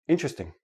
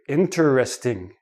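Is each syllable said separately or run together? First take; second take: run together; separately. First: It is run together into three syllables. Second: Each of four syllables is said separately. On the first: It is ordinary everyday speech. "But in everyday speech" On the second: The speaker wants to emphasize the word. "they enunciate each syllable. They say each syllable separately"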